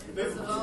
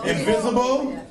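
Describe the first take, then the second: First: Silent invisible. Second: Said in the usual way. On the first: Pretend. Deadpan joke, voice vanishes.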